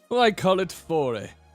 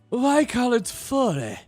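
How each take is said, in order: First: The line is voiced in a deeper tone. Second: The line is voiced in a lighter tone. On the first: The speaker calls it wrong. "he does not look like a guy who would have a deeper voice" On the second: The speaker calls it right. "He actually sounds like someone who would go"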